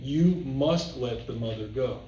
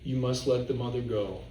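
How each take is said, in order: First: It is read firmly, as a strong command. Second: It is read mildly, just going along. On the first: It is a strict order, not a choice. "it's really an impediment" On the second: It sounds like gentle advice. "the way I read it, where it's just kind of going along"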